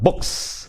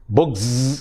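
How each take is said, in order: First: The final sound is an s. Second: The final sound is not an s. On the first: The speaker calls it right. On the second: The speaker calls it wrong.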